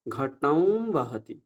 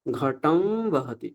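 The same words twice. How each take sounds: First: ঘটং বহতি said slowly with ং sound; wrong ং form. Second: ঘটম বহতি very slow, ম blended into a nasal ব; nasal b pronunciation. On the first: Teacher contrasting the rejected reading, slow. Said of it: "ঘটম বা ঘটং বললাম না". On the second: Teacher demonstrating nasal বকার, very slow. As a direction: model ঘটম বহতি slowly. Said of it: "তাহলে কি উচ্চারণ হবে?". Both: Shown as a demonstration.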